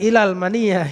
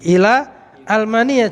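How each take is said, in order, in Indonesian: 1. Ila langsung menyambung ke almania tanpa hamzah. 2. Hamzah memisahkan ila dari almania. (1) "jangan ilal mania gitu"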